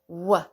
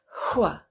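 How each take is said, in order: First: The sound is voiced, with no breathy onset. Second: The sound is voiceless, with a breathy onset. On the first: "because it's coming through your voice box" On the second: "If it's voiceless and it's at the beginning of the word, we can go hua"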